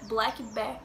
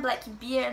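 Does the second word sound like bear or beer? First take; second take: bear; beer. First: The second word sounds like bear. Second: The second word sounds like beer. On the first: It means the animal, a bear. The speaker calls it right. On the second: It means a dark beer. The speaker calls it wrong.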